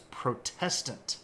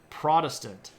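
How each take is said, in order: First: The stress is on the second syllable. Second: The stress is on the first syllable. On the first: "the original pronunciation of the word" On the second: "shift the emphasis of that word to the first syllable"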